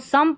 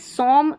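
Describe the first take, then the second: First: The vowel is a short 'uh' sound. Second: The vowel is an 'oh' sound. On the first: The speaker calls it right. "इसको सम पढ़ना है" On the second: The speaker calls it wrong. "सोम नहीं पढ़ना है"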